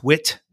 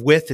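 First: "wit" ending in a hard T. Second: Said in the usual way. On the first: Shown as a demonstration. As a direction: say "wit" with T replacing the TH. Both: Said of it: "your T Hs are just T's".

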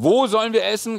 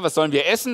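First: "wo" raised in pitch and stressed. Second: Said in the usual way. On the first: Shown as a demonstration. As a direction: punch the word "wo" as the new question. Contrasts new question word with old.

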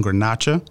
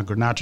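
First: Grenache said the Spanish way, gar-NAH-cha; Spanish pronunciation. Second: Grenache said the French way, gruh-NAHSH; French pronunciation. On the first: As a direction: say Grenache with a "ch" as in church and a final "a". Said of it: "as they say in Spain". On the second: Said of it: "In France". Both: Shown as a demonstration.

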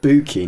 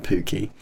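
First: "Booky" starting with a clear B sound; corrected pronunciation. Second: "pooky" starting with a P sound; wrong pronunciation. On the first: Correcting a misheard made-up word, clearly pronounced "Booky" with a B. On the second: Quoting the listener's mistaken word, "pooky" with a P. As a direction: put a P where the B belongs in "pooky". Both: Shown as a demonstration. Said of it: "Booky, not pooky".

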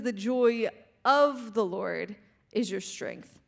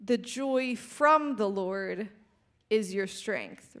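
First: OF drawn out and set apart, slow phrase; slowly single out the word OF; stress on OF. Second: FROM leaned on, slow phrase; slowly single out the word FROM; stress on FROM. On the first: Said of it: "It says". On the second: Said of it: "But it doesn't say". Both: Shown as a demonstration.

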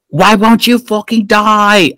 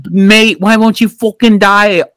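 First: Mock British accent, slow and high-pitched; hammed-up British villain, high and drawn out. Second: Mock British accent, higher pitched; hammed-up British villain, higher pitched. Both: Lady Eboshi shooting at the god, mock British accent. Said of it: "I don't know why she's British".

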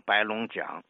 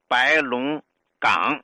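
First: 白龙港 ending on "jiǎng" instead of gǎng; local pronunciation. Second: Said in the usual way. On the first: Shown as a demonstration. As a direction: say 白龙港 with the last syllable as 讲. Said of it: "当地人读成白龙港". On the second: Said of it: "有一个叫白龙港".

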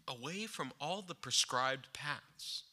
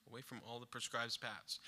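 First: Said in the usual way. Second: A hushed second take of the phrase; quiet, reflective repetition; soft echo. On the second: Acted. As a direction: repeat it much softer, almost to yourself.

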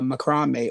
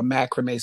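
First: Said in the usual way. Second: Macrame said as "MAC-ruh-may"; alternative pronunciation. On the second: Shown as a demonstration. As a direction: say macrame the other way, stressed on a first syllable "mac". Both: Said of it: "some people pronounce it".

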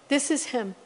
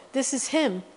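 No difference in how they are said.

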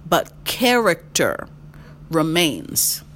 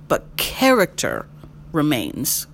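Both takes have the same delivery.

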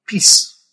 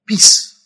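First: Said in the usual way. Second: Breathy whispered "Peace". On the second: Shown as a demonstration. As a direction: hush the word peace to a whisper. Repeated peace, now whispered.

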